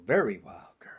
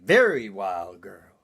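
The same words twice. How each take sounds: First: Breathy whisper of the catchphrase; whispered refrain. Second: Deep, slow leering catchphrase; low drawn-out refrain. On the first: Comic whispering his refrain to the crowd. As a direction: hush it like a secret. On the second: Comic repeating his refrain low and slow. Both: Acted.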